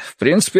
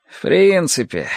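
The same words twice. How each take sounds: First: Said in the usual way. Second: Drawn-out, higher doubtful "принципе"; sceptical echo. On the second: A narrator's reading. Larsen throws the captain's words back at him, drawn out and sceptical. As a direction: stretch "принципе" out, then let it fall.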